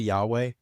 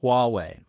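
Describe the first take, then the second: First: It begins with a 'yah' sound. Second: It begins with a 'wah' sound. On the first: The speaker calls it wrong. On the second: The speaker calls it right.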